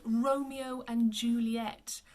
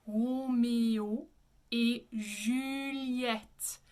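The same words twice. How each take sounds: First: Slow English Romeo and Juliet; English pronunciation. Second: Very slow Romeo et Juliette with back r; French pronunciation. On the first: Teacher shows how not to say it, anglicized. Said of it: "we don't say it that way". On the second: Teacher models the French title slowly, French pronunciation. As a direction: Romeo et Juliette as "ro-may-o ay zhü-lyet". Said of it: "In French, we say". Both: Shown as a demonstration.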